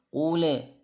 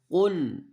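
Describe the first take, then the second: First: The final l bounces into a short vowel. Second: The word ends cleanly on the l sound. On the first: The speaker calls it wrong. "Huruf lam sukun jangan dipantul" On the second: The speaker calls it right.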